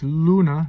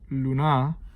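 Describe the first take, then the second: First: The stress is on the first syllable. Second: The stress is on the second syllable. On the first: The speaker calls it right. "It's luna, ... longer rhythmic uh, value on lu, not na" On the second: The speaker calls it wrong. "not luna"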